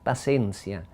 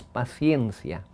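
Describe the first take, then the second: First: "paciencia" said pa-SEN-sya, no i glide; Ladino pronunciation. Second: "paciencia" said pa-SYEN-sya, with the i glide; modern Spanish pronunciation. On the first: Explaining Ladino to an interviewer, Ladino pronunciation. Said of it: "en ladino se dice paciencia". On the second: Contrasting modern Spanish for the interviewer, standard pronunciation. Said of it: "y en el español moderno es". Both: Shown as a demonstration.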